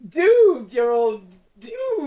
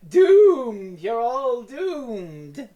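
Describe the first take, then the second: First: High, loud doom line breaking up; nearly corpsing. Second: Slow, drawn-out doom warning; slow ominous raspy drawl. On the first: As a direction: fight back laughter on the doom line. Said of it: "He's nearly corpsing as he says it". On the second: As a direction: intone it like a dying villain. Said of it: "He's supposed to say". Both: Retold or imitated.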